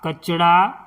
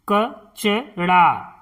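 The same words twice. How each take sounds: First: Said in the usual way. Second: कचड़ा split as क-च-ड़ा; syllable by syllable. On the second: Shown as a demonstration. Teacher sounding out कचड़ा for pupils. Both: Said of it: "इस तरह से".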